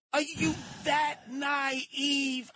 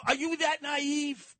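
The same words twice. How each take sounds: First: "Are you that naive?" stretched very slow, every word leaned on; drawn-out repeat. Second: "naive" thrown out high and incredulous; incredulous challenge. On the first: Pressing the host again, slowly and mockingly. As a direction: drag each word out, mocking disbelief. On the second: Scolding the host for trusting the mayor, incredulous. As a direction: push the question up, disbelieving. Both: Real, not acted.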